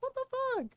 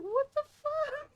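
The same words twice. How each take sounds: First: Much higher mock-baffled guy voice; cornered boyfriend squeaks again, high. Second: Much higher, slow mock-baffled guy voice; cornered boyfriend squeaks at the roasting, high and slow.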